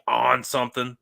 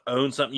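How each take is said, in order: First: "on" for "own", opened to a long ah; "on" with a Pittsburgh ah, no rounded o; Yinzer vowel. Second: Said in the usual way. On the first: Shown as a demonstration. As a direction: say "on" as A-H-N in place of own. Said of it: "it's A H N". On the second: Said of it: "like, O W N".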